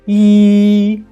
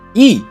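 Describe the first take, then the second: First: The pitch stays high and level. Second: The pitch falls sharply from high to low. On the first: "The first tone is E" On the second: "Last tone is E"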